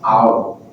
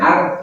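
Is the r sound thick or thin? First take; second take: thick; thin. First: The r sound is heavy and thick. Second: The r sound is light and thin. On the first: The speaker calls it right. "tapi au, tebalkan au" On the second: The speaker calls it wrong. "bukan ar"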